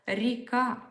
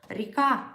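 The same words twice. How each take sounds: Both takes have the same delivery.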